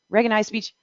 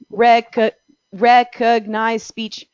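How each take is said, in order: First: The syllables are run together too quickly. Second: There are pauses between the syllables. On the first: The words may be transcribed as something else. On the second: Each syllable may be transcribed as a separate word.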